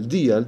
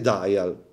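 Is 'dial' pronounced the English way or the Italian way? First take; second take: Italian; English. First: The word is read with Italian-style vowels. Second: The word is said with English pronunciation. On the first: The speaker calls it wrong. "Perché dite Dial?" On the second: The speaker calls it right. "perché è inglese"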